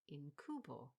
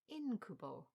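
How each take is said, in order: First: The stress is on the second syllable. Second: The stress is on the first syllable. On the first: The speaker calls it wrong. "I'd always read in my head as incubo" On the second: The speaker calls it right. "Should have gone with the same stress as incubus"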